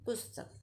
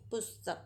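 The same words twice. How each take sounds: First: पुस्तक repeated softly, short स then a full त; repeated model. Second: पुस्तक said softly, short स then a full त; model pronunciation. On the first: Teacher repeats पुस्तक for the class. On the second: Teacher models पुस्तक for the children. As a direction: say पुस्तक quietly and clearly. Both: Shown as a demonstration. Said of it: "इसका उच्चारण कैसे करेंगे?".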